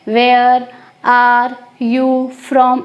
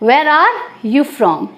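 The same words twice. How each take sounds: First: The words come slowly, with breaks between them. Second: The words run together quickly and smoothly. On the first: The speaker calls it wrong. "ऐसे अटक अटक के तो नहीं बोलेंगे" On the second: The speaker calls it right. "थोड़ा सा fast बोलेंगे, फ्लुएंसी लाएंगे"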